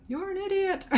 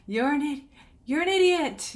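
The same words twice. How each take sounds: First: High, lightly voiced echo calling the insult back; the cave echo answers the Grinch, mock echo; echo shouting back. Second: High mock yell of an insult into a cave; the Grinch yells at his echo in the cave, mock shout. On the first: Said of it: "it shouts back to him". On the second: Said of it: "like, shouting to his echo".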